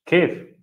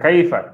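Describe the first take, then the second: First: The word ends on the consonant, no final vowel. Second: The word ends with a final 'a' vowel. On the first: It is the casual spoken form. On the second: It is the full standard form. "bukan kaifa"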